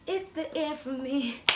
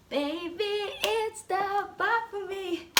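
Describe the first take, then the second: First: Said in the usual way. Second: Sung, much higher, slow, drawn-out voice; high sung-out catchphrase. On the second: Pretend. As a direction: sing it out like a diva. Performing catchphrase.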